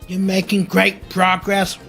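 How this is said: It is said in a robot voice.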